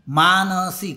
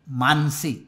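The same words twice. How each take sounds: First: Every vowel sound in the name is fully pronounced. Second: A vowel sound in the name is clipped short. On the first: The speaker calls it right. "कुठेही मानसीचा पाय तुटलेला नाही" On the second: The speaker calls it wrong. "पाय तोडून बोलण्याची सवय झालेली"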